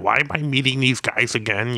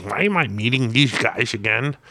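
First: Lightly voiced grumpy celebrity; a rough impression, slightly higher than usual; half-hearted impersonation, pitched up a little; Stan Lee. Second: Higher, put-on grumpy celebrity voice; hammed-up impression of a cranky comics legend; Stan Lee. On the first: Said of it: "I can't do a Stan Lee impression". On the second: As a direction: put on a complaining caricature voice. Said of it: "that's my best one".

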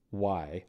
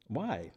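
First: Said in the usual way. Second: Questioning "why" that swoops up then falls; exaggerated swooping WHY; not how it was texted. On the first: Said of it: "I texted". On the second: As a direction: blurt an inward, wary why. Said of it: "I didn't s-, say it that way".

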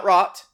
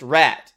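First: "rot" with a back ah vowel, pitched up; the mistaken version of rat, said as "rot"; wrong vowel. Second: "rat" said with a short, open English a; English-dialect rat. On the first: Actor showing what to avoid, rat mispronounced as "rot". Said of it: "It's not rot". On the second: Actor showing a dialect word, English short-a "rat". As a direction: give "rat" a plain English-dialect vowel. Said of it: "in an English dialect". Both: Shown as a demonstration.

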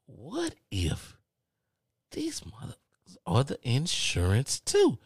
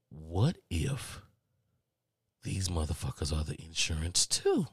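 First: High, drawn-out panicky wondering; heightened dread. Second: Low, hushed, suspenseful wondering; dawning dread. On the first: Caller on hold suspects same company is insurer, high-pitched dread. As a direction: stretch it upward in mock horror. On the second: Caller on hold suspects same company is insurer, hushed dread. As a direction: let the worry creep in quietly. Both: Acted.

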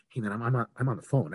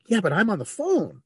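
First: Polite brush-off. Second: Higher-pitched, exasperated brush-off; testy protest. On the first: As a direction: put him off mildly, mid-call. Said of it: "I literally said it just like that". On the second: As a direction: insist you're busy, a little testy. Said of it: "And I said it just like that". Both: Retold or imitated.

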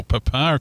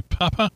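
First: "Papa" said the local Antipodean way; local pronunciation. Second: "Papa" in the other region's pronunciation; phonetic-alphabet Papa. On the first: Host corrects for this part of the world, local "Papa". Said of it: "if you're from this part of the world". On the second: Host reads the registration, "Papa" said the foreign way. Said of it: "or Papa if you're from". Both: Shown as a demonstration.

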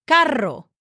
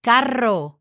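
First: "Carro" with a strong trilled double R; rolled r. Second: "Carro" again with a trilled R; rolled r. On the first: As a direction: roll the R hard in "Carro". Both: Shown as a demonstration. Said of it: "the R is gonna be really strong sound".

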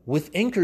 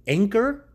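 First: "Anchor" with a lifting stress; name "Anchor" clearly, rising at the end; brand name stressed. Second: "Anchor" hit much higher and louder; brand name punched. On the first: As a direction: put a light upward stress on "Anchor". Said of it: "brand name in ad". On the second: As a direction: punch "Anchor" high and loud, rising. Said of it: "brand name repeated, punched". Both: Shown as a demonstration.

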